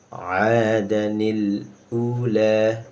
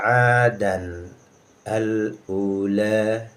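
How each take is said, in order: First: A linking 'ni' sound joins 'adan to ula. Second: No linking 'ni' sound is added after 'adan. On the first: "apabila kita lanjutkan" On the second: "'Adan tanwin dal ya"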